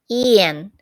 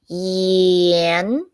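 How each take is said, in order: First: The pitch of the syllable does not rise. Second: The pitch of the syllable rises upward. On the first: It is a person's name. "sounded like a person's name" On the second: It means salt. "except the intonation goes upward"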